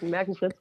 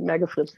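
First: It is said in Standard German. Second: It is said in the local dialect.

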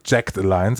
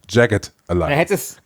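First: The first word sounds like 'jacked', one syllable. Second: The first word sounds like 'jagged', two syllables. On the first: The speaker calls it wrong. "nicht Jacked. Wie auch gerne oft einmal gesagt wird" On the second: The speaker calls it right. "Es ist Jagged Alliance"

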